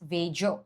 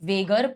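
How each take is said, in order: First: The middle consonant is a soft j sound. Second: The middle consonant is a hard g sound. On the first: The speaker calls it right. "It is वेजर" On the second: The speaker calls it wrong. "कुछ कुछ लोग उसे वेगर pronounce करते हैं, that is wrong"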